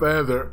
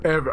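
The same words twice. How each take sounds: First: "ever" said with a th sound, like "ether"; slip on "ever". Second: Said in the usual way. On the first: Real, not acted. Gamer naming the quickest death, "ever" slipping to "ether". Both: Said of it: "I said ever".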